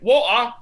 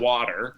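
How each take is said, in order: First: It is said in a North London accent. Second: It is said in an American accent. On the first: "then their teachers are like" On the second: "we say"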